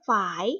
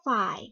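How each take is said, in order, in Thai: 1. คำว่า ฝาย ออกเสียงเป็นเสียงขึ้น 2. คำว่า ฝาย ออกเสียงเป็นเสียงต่ำ (1) "คำว่าฝายเป็นเสียงจัตวา" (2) "คำว่าฝ่ายเป็นเสียงเอก"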